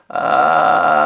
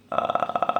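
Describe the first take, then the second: First: Low, loud voiced creaky drive; gritty drive with full voice; vocal drive. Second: Soft creaky fry with no voice; unvoiced rattling vocal fry. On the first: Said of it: "já é um drive". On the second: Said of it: "desculpa, o fry vocal". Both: Shown as a demonstration.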